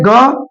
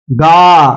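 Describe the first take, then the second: First: ग short, pitch rising; short half sound. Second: गा held out, lower; full long sound. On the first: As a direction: clip the vowel of ग. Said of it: "कम होनी चाहिए". (ग की छोटी ध्वनि) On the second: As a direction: draw out the vowel of गा. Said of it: "पूरी होनी चाहिए". (गा की लंबी, पूरी ध्वनि) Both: Shown as a demonstration.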